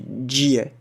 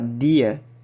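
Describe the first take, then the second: First: The d sounds like dj, standard style. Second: The d is plain, southern Brazilian style.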